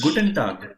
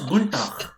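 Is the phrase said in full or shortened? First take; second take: full; shortened. First: Every syllable of both words is said fully. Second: The first word is squeezed into one syllable. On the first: "If you see, it is Guten Tag" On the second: "but if it is being pronounced, it is Guntag"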